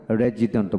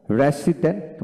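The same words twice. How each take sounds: First: "রেজিডেন্ট" with a clear j, re-ji-dent; "রেজিডেন্ট" as re-JI-dent, lower second option. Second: "রেসিডেন্ট" with a clear s, re-si-dent; "রেসিডেন্ট" as re-SI-dent, first option. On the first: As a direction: say "রেজিডেন্ট" voiced in the middle. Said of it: "রেজিডেন্ট বলবেন". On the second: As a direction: say "রেসিডেন্ট" with s in the middle. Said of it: "রেসিডেন্ট বলবেন". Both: Shown as a demonstration.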